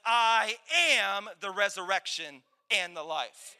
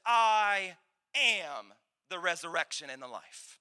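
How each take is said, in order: First: Slow, punched "I am" with weight; emphatic declaration. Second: First "I am" drawn out slowly and low; solemn declaration. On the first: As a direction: hit "AM" hard and draw out "the resurrection and the life". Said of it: "I'm gonna say it again". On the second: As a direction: stretch "I am", then let "the resurrection and the life" settle lower. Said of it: "that didn't hit you like I thought it would". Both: Acted.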